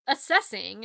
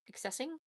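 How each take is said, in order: First: "Assessing" said firmly with an s sound, not "accessing"; confident correction to "Assessing"; corrected word. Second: "accessing?" said as the mistaken word with a doubtful rising tune; unsure "accessing?" with the hard c-s sound; "accessing?" tried out then doubted; wrong word slip. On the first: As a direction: settle on "Assessing" with a clear s. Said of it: "Assessing is the word that I want". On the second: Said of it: "That's not the word I want". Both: Real, not acted.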